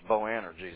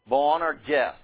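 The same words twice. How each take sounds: First: The name is said with an anglicized pronunciation. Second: The name is said with a Greek-style pronunciation. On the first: The speaker calls it wrong. "the anglicized form, that's just the fault of people who speak English. ... That's not how you pronounce it" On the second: The speaker calls it right. "When you take B'nai Regesh and you try to transliterate that into Greek, ... you get Boanerges"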